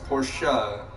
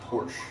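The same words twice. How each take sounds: First: The name is said the German way. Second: The name is said the anglicized way. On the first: The speaker calls it right. "It is pronounced Porsche" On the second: The speaker calls it wrong. "not Porsche"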